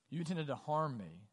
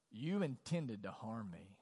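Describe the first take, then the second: First: Said in the usual way. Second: Slow, lower reading of the accusation; slow, heavy quote. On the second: Retold or imitated. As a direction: let each word land slowly and gravely. Reading Genesis quote twice.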